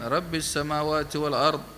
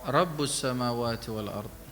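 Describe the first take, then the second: First: The first word ends in an 'i' vowel. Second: The first word ends in a 'u' vowel. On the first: "Ada bacaan lain" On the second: "Ada bacaan Aba Amr"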